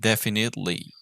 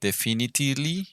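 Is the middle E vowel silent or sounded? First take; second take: silent; sounded. First: The middle E vowel is left out. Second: The middle E vowel is clearly pronounced. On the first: The speaker calls it right. "like without the E" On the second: The speaker calls it wrong. "we don't say"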